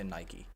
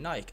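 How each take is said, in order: First: It is said the American way. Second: It is said the Irish way. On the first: "the Americans say Nike" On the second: "Irish people say Nike"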